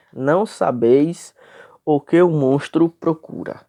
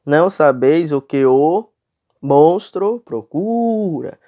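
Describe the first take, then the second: First: Reading the verse straight through, slightly raised; leitura direta. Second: "Não sabeis o que o monstro procura" loud and measured, long "cu" in "procura"; leitura escandida. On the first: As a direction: read the line without splitting syllables. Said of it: "Eu li direto". (leitura direta do verso, sem escandir) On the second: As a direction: scan it, joining "que o" and stretching "procura". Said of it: "nós lemos assim". ("Não sabeis o que o monstro procura" escandido, com "procura" alongado) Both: Shown as a demonstration.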